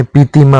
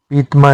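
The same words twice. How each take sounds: First: पीतिमा as pee-ti-maa; correct form. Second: पीतमा as two syllables, peet-maa; no vowel after t in पीतमा; wrong form. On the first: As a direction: sound an i after t in पीतिमा. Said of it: "होता है". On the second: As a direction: run t into m in पीतमा. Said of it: "नहीं होता". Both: Shown as a demonstration.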